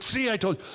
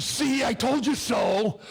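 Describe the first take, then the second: First: Said in the usual way. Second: Mock scolding wife. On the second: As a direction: rub it in like a smug wife. Wife scolding after his fall.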